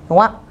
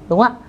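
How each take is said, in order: The two takes are said the same way.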